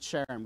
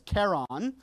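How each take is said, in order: First: The name begins with a soft SH sound. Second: The name begins with a hard K sound. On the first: "pronounce it Charon with the soft SH" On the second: "you want to pronounce that CH as a chi"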